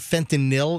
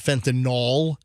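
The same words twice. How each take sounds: First: The ending does not sound like Tylenol. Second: The ending sounds like the end of Tylenol. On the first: The speaker calls it right. "please note that I'm saying fentanyl" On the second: The speaker calls it wrong. "not fentanyl ... It doesn't sound like Tylenol"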